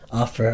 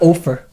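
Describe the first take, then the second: First: The first vowel sounds like the vowel in 'off'. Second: The first vowel sounds like the vowel in 'gopher'. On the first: The speaker calls it right. "Offer, of course, yeah" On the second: The speaker calls it wrong. "Not offer. Unless, like, you know, you're talking about a gopher"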